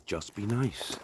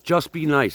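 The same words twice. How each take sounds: First: Soft, cool, unbothered bouncer line; Patrick Swayze quote. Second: Emphatic plea. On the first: Retold or imitated. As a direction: say it quietly and calmly like a laid-back tough guy. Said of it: "what Patrick Swayze said in Roadhouse". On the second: Real, not acted. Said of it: "Isn't that what Patrick Swayze said".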